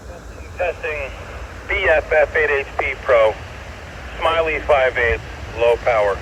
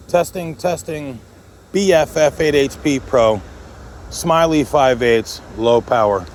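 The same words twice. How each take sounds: First: Heard through a radio; as if over a handheld radio; over walkie talkie. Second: Said in the usual way. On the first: Shown as a demonstration. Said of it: "super clear". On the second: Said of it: "this is a winner".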